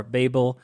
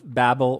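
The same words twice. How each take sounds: First: "Babel" with a long A, BAY-bul; second pronunciation. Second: "Babel" with a short A, like babble; first pronunciation. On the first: Reviewer offering the alternative name of the game, long-A BAY-bul. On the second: Reviewer offering both names of the game, short-A BAB-ul. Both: Shown as a demonstration. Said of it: "one of those pronunciations".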